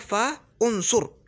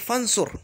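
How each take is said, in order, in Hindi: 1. 'fa' और 'unsur' अलग-अलग बोले जाते हैं, 'u' रहता है। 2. 'fa' सीधे 'nsur' से जुड़ जाता है, 'u' गिर जाता है। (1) "फंसुर असल में क्या था? फ़ा उनसुर" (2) "मैं फंसुर बोल सकता हूँ"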